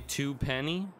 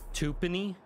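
First: Both parts are said fully as 'two penny'. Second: The first part is reduced to a short 'tup'. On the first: The speaker calls it right. "They don't say two penny?" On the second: The speaker calls it wrong. "Why do they say it like that?"

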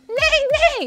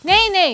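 First: The voice trembles with a vibrating quaver. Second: The voice is steady without any vibration. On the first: The speaker calls it right. "이렇게 바이브레이션을 넣어줘야 말 소리가 재밌게 나죠" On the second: The speaker calls it wrong. "그냥 네이네이 이러면 안 돼요"

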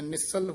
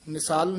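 First: The second syllable is short and tight. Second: The second syllable is drawn out and loose. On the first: The speaker calls it right. "ਥੋੜਾ ਜਿਹਾ ਕੱਸ ਕੇ ਬੋਲਣਾ ਹੈ" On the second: The speaker calls it wrong. "ਨਿਸਾਲ ਨਹੀਂ ਬੋਲਣਾ"

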